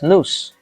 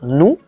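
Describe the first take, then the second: First: The final s is sounded. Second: The final s is silent. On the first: The speaker calls it wrong. "and not nous" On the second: The speaker calls it right. "you do not pronounce the consonant. Yes, so the word is pronounced nous"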